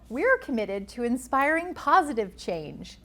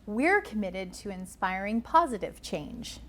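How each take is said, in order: First: The pitch swings widely up and down, animated. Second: The pitch moves between higher and lower notes.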